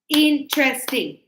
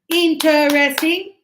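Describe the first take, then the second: First: The word is shortened to three syllables. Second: The word is said with four full syllables. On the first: The speaker calls it right. "So three syllables" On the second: The speaker calls it wrong. "instead of interesting"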